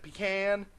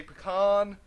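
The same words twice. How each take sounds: First: Pecan starting with a long "pee"; pecan ending to rhyme with man; PECAN as PEE-can. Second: Pecan with an "ah" in the second syllable; pecan ending in an open "kahn"; PECAN as puh-KAHN. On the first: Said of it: "I've always said". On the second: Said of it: "I know some people say". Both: Shown as a demonstration.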